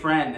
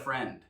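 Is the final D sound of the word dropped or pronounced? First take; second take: dropped; pronounced. First: The final D sound is left off. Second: The final D sound is clearly pronounced. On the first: The speaker calls it right. "Sometimes it's better to say friend" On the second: The speaker calls it wrong. "instead of friend"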